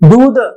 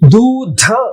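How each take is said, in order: First: The consonants are said without a puff of breath. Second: The consonants are said with a puff of breath. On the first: The speaker calls it wrong. "दूध गलत है" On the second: The speaker calls it right. "बलाघात वाले ध्वनियों का उच्चारण"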